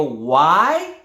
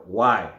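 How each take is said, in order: First: WHY loud and rising steeply; upward tone. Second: Low, falling WHY; downward tone. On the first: Trainer wants answers, loud WHY in an upward tone. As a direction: swoop WHY up into an open question. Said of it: "the upward tone". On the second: Trainer asks executives, WHY in a downward tone. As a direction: let WHY drop at the end. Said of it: "Like downward". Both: Shown as a demonstration.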